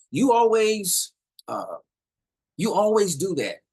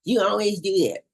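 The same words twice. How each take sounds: First: Higher and louder finger-pointing complaint; accusing. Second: High, loud mimicking retort; mock the other person's complaint; mocking echo. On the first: Acted. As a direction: throw the blame at them, stretching the words. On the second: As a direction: parrot it back in a childish mocking voice. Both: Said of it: "or mocking. All right. For example".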